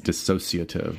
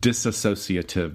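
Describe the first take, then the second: First: The word is said without an extra syllable. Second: The word is said with an extra syllable. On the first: The speaker calls it right. "There's not that extra syllable" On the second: The speaker calls it wrong. "How do a lot of people pronounce it?"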